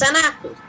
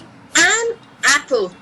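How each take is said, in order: First: The N runs straight into the following vowel. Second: The two words are said separately, without linking. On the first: The speaker calls it right. "We've combined N, which is the consonant, with A" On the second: The speaker calls it wrong. "We don't say an apple"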